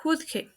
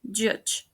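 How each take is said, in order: First: "juzgue" in two syllables with oo; mispronounced. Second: "judge" as juhj; "judge" in one syllable; correct pronunciation. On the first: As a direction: say "juzgue" with two Spanish h sounds. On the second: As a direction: say "judge" with j at both ends. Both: Shown as a demonstration. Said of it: "The correct pronunciation is".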